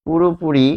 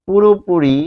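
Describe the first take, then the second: No difference in how they are said.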